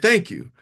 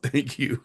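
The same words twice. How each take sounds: First: It sounds sincere and grateful. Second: It sounds grudging and dismissive.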